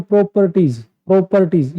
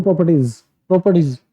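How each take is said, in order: First: properties drawn out syllable by syllable; over-stretched word. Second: properties said short and quick; quick delivery. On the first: Teacher showing how not to stretch a word, properties drawn out. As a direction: drag out each syllable of properties. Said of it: "word को इतना नहीं खींचना है". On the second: Teacher showing quick word delivery, properties said fast. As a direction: get through properties quickly, no stretching. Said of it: "जल्दी से उसको deliver कर देना है". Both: Shown as a demonstration.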